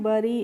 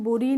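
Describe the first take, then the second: First: The first vowel is a short 'uh' sound. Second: The first vowel is an 'oo' sound. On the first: The speaker calls it right. "B U double R Y को हम पढ़ते हैं बरी" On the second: The speaker calls it wrong. "इसको बुरी नहीं पढ़ते हैं"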